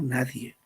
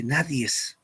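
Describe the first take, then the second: First: "nadie" said cleanly with no final s; correct form nadie. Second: "nadies" drawn out slowly with a hissed final s; wrong form nadies. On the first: Teacher gives students the correct word, calm and low. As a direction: give the right "nadie", short and settled. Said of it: "sino nadie". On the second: Teacher shows students the wrong word, slow and deliberate. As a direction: stretch the wrong "nadies", lingering on the extra s. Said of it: "no se dice nadies". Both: Shown as a demonstration.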